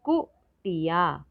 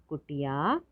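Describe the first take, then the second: First: कुटिया split as short कु, टि, या; syllable by syllable. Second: Said in the usual way. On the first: Shown as a demonstration. Teacher sounding out कुटिया for learners, syllable by syllable. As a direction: separate beats in कुटिया. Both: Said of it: "तो शब्द पढ़ते हैं".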